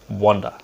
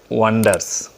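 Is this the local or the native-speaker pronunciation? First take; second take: native; local. First: It has the native-speaker pronunciation. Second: It has the local, non-native pronunciation. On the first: The speaker calls it right. "the correct one is wonder" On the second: The speaker calls it wrong. "We pronounce wonders"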